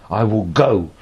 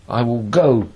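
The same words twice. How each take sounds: No difference in how they are said.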